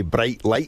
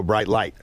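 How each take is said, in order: First: "bright light" with Scottish vowels; Scottish accent. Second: "Bright light" with American vowels; American accent. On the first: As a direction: say "bright light" as a Scot would. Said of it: "in Scotland we say". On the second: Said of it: "in America they go". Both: Shown as a demonstration.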